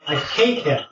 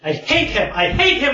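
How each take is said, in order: First: Hatred held at a near-normal pitch; contained hatred. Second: Rising higher with each repeat; mounting hatred. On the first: Giant bird names its enemy to visitors, contained hatred. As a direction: say it firmly, before the outburst. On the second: Giant bird rants about its enemy, mounting hatred. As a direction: build toward a frantic, high-pitched outburst. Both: Acted. Bird's hate builds through repeats.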